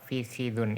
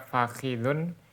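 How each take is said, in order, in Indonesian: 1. Vokal pertamanya adalah 'i' tertutup. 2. Vokal pertamanya adalah 'a' terbuka.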